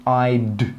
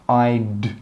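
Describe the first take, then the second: Both takes have the same delivery.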